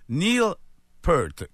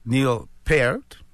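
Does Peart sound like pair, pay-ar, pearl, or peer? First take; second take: pearl; pair. First: The name rhymes with the word pearl. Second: The name has the vowel of pair. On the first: "comme une pearl, comme une perle" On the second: "comme une poire, paire, ou une paire"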